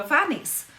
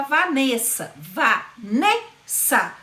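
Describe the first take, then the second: First: Said in the usual way. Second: Slow, stressed NE in Vanessa; stressed syllable demo. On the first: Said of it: "ela é a vogal tônica". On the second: Shown as a demonstration. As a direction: drag out Vanessa, leaning on the E. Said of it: "Veja que esse E".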